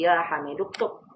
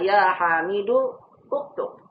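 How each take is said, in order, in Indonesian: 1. Vokal u sebelum ktub dihilangkan. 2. Vokal u sebelum ktub dilafalkan. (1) "tapi ya hamidu uktub" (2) "Bukan dibaca ya hamidu uktub"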